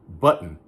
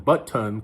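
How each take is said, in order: First: The middle T sound is dropped. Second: The middle T sound is clearly pronounced. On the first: "I say button" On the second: "If you pronounce them button"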